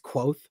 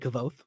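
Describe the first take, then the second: First: The name is said like 'quote' with a W. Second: The name is said as 'kavoth'. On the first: This is how the author says it. The speaker calls it right. "it's like quote, but with like a W" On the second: This is how the reader heard it in their head. The speaker calls it wrong. "in my head, I still say Kavoth"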